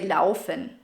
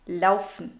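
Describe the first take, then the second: First: The ending -en is pronounced fully and clearly. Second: The ending -en is swallowed and barely heard. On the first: The speaker calls it wrong. "you don't really say laufen" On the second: The speaker calls it right. "most people will just say laufen. Laufen, not laufen"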